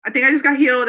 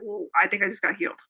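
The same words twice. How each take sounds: First: Louder, higher burst of disbelief; the realization bursts out loud; excited. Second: Said in the usual way. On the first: Retold or imitated. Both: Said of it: "And so I freak out about it".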